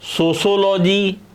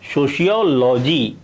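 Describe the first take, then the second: First: The second syllable is said as 'sho'. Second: The second syllable is said as 'see-o'. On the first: The speaker calls it wrong. "इस प्रकार से इसका उच्चारण हम गलत वे में कर देते हैं" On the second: The speaker calls it right. "ये इसका सही उच्चारण है"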